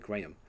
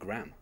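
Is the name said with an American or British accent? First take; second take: British; American. First: It is said the British way, with the H stressed. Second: It is said the American way, like graham crackers.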